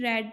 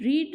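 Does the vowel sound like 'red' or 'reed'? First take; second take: red; reed. First: The vowel is short, as in 'red'. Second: The vowel is long, as in 'reed'. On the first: It is the past form of the verb. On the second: It is the present form of the verb.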